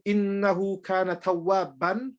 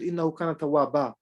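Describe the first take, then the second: First: The last word ends with a short 'an' sound. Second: The last word ends with a stretched 'aa' vowel. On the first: "instead of saying" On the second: "you take one fatha off and you stretch me"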